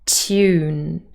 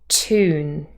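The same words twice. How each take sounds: First: It starts with a t followed by a y. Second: It starts with a plain t, no y. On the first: This is the standard British pronunciation. "So we have a t and a y" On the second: This is the American pronunciation. "the y has disappeared"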